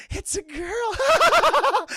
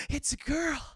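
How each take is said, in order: First: High, loud, drawn-out joyful shout; ecstatic shout. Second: Said in the usual way. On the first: Retold or imitated. Andre proudly announcing the baby, drawn-out shout. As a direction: announce it to the world.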